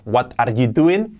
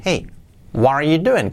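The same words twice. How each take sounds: First: Slow "What are you doing?" word for word, hard t's; unlinked Spanish-style "What are you doing?"; wrong flat reading. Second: "Hey", pause, then flowing "what are you doing?"; natural English "Hey, what are you doing?"; linked with intonation. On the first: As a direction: misread "What are you doing?" as written, "doo-eent". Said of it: "No puedes decir ya". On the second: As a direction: join "what are" and let "doing" swing down. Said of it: "Tienes que decir". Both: Shown as a demonstration.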